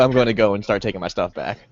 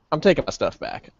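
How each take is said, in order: First: Said in the usual way. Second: Deadpan, softened statement. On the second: Acted. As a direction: state it with no show of feeling. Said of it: "the most deadpan look on my face".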